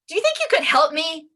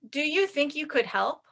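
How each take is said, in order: First: The request is said in a rude, impolite tone. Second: The request is said in a nice, polite tone. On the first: The speaker is annoyed or demanding. "now it doesn't sound so polite" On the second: The speaker is politely asking for help. "Sounds very nice"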